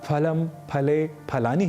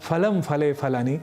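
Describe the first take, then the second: First: The first sound is said the Sanskrit way. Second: The first sound is said the Hindi way. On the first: The speaker calls it right. "ही कहना है" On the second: The speaker calls it wrong. "ऐसा प्रयोग नहीं करना है"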